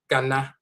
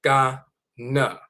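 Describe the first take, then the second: First: "Ghana" as gah-nah, open ah vowels; both vowels open ah; Akan pronunciation. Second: "Ghana" as gan-uh, ending in a weak uh; flat a then a slack uh; American pronunciation. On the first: Teacher quoting the Ghanaian visitor, open ah vowels. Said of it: "He said". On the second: Teacher mimicking the American friend, gan-uh. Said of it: "so accustomed to saying na". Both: Shown as a demonstration.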